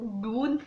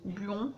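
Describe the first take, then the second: First: "Buon" tried with an OO vowel, like "boun"; alternative pronunciation. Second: "Buon" tried with an O vowel, like "bo"; unsure pronunciation. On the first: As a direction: say "Buon" tentatively as "boon". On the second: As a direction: say "Buon" tentatively as "bon". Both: Shown as a demonstration. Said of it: "je sais pas si on dit".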